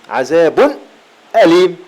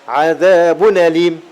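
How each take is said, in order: No difference in how they are said.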